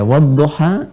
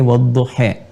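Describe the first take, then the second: First: The final vowel is a clear open a. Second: The final vowel leans toward an e sound.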